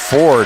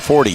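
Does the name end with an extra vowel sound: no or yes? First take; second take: no; yes. First: The name ends on the d sound. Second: The name ends with a vowel after d. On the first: The speaker calls it wrong. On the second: The speaker calls it right.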